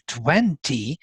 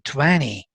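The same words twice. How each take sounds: First: The t between n and y is clearly pronounced. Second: The t is softened or dropped, American style.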